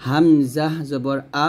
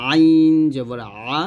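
First: "আ" light from the start of the throat; slow "হামজা", clean unsqueezed "আ"; hamza without pressure. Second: Long "আইন", "আ" squeezed from mid-throat; pressed ain. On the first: Teacher separates similar letters, unpressed "আ". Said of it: "গলার শুরু থেকে নিয়ে আসবো". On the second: Teacher separates similar letters, pressed "আ". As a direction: give "আ" some middle-throat pressure. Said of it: "মাঝখান থেকে একটু চাপ দিয়ে". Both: Shown as a demonstration.

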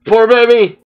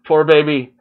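First: Louder and higher, pained sympathy; loud pitying cry. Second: Said in the usual way. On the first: Real, not acted. Watching a cornered character, a loud pitying cry. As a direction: cry out for the poor thing.

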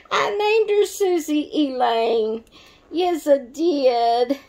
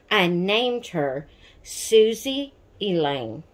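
First: High, sing-song and teasing; playful after fixing her slip of the name; playful singsong. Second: Said in the usual way. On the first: Real, not acted. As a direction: announce it proudly, then a slow teasing yes I did. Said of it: "Sorry, Susie".

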